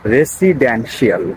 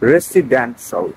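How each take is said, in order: First: The ending is said as two syllables, shee-al. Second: The ending is said as one syllable, shal. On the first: The speaker calls it wrong. "রেসিডেন্সিয়াল is not the correct pronunciation" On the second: The speaker calls it right. "তাহলে উচ্চারণটা হবে রেসিডেন্সিয়াল"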